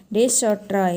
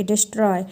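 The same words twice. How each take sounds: First: "डिश और ट्रॉय" as two separate parts; split syllables. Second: Said in the usual way. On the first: Shown as a demonstration. Teacher showing an iambic foot, word split in two. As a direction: divide destroy into "डिश" और "ट्रॉय". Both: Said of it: "एक अनस्ट्रेस सिलेबस और एक".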